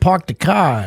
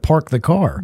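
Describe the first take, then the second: First: It is said in a Boston accent. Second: It is said in a standard American accent.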